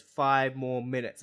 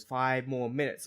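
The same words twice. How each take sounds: First: A mock crowd-pleasing plea; slow, pointed callout; slow, louder mock demand. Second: Said in the usual way. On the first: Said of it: "picks up the microphone and goes". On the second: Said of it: "Swerve picks up the microphone and goes".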